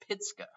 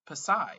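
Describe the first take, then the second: First: The name sounds like 'pitska'. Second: The name sounds like 'pa-sai'. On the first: The speaker calls it right. "now I know it's Pitska" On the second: The speaker calls it wrong. "that's not the way you say it"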